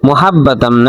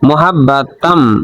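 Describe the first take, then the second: First: The h is a light, plain breath. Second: The h is a long, throaty sound. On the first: The speaker calls it wrong. "না" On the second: The speaker calls it right. "এটা হা লম্বা হা গলার মধ্য থেকে উচ্চারণ করতে হয়"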